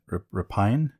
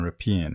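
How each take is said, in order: First: "rapine" said ra-PINE, questioning; pronunciation variant. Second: "rapine" said ra-PEEN; pronunciation variant. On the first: Co-host checking a word, "rapine" as a questioning ra-PINE. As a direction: say "rapine" to rhyme with pine, rising. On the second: Co-host trying a word on his partner, "rapine" as ra-PEEN. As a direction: say "rapine" with an EE sound in the second syllable. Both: Shown as a demonstration. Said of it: "heard it pronounced both ways".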